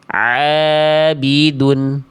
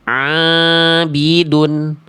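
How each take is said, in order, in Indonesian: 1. Bunyi ain hanya mengalir melalui mulut. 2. Bunyi ain keluar melalui hidung. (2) "Ini contoh bacaan yang ainnya masuk ke dalam rongga hidung"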